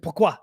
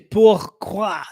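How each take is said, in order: First: Several written letters stay silent, as usual. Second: Every written letter is sounded out as spelled. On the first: The speaker calls it right. "Say pourquoi" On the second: The speaker calls it wrong. "but it's P O U R Q U O I, but you don't say pourquoi"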